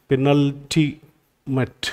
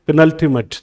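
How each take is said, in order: First: "penultimate" very slow and soft, piece by piece; spelling out slowly. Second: Said in the usual way. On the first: Shown as a demonstration. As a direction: sound out "penultimate" in parts while writing it. ("Penultimate" धीरे-धीरे, टुकड़ों में) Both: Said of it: "spelling इसकी देख लेते हैं".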